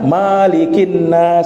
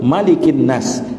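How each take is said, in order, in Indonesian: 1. Vokal setelah huruf m dibaca panjang. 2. Vokal setelah huruf m dibaca pendek. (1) "Jangan dibaca Malikin Nas, keliru" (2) "mimnya dibaca pendek"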